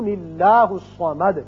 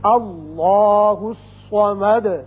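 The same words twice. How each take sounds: First: Allah is linked by an n sound, thin l. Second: Allah starts the phrase with a full, heavy l. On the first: The two verses are joined together. "اسم اللہ کا لام پھر باریک پڑھا جائے گا" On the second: The previous verse ends with a stop. "اللہ کا نام پر کر کے پڑھا جائے گا"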